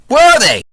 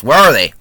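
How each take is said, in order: First: High, loud repeated demand; exasperated shout. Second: Said in the usual way. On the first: Real, not acted. Reviewer yells at the film about missing bullet holes, loud. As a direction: yell it in mock outrage at the film.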